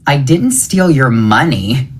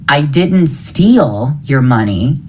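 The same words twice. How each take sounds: First: The stress falls on the word money. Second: The stress falls on the word steal. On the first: Something other than money was taken. "It was something else" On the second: The money was taken another way, such as borrowing. "I borrowed it"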